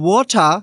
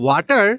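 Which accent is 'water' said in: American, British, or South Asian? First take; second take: British; South Asian. First: It is said in a British accent. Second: It is said in a South Asian accent. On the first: "Australian accent বা British accent" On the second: "this is the correct way in Bangladesh and Indian accent"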